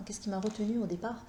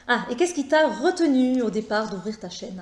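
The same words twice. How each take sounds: First: Much softer, thinking aloud; musing to herself. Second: Clear, animated read-out of a question. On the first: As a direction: repeat the question quietly to yourself. Repeats the question to herself. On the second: Reads the question out loud. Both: Real, not acted.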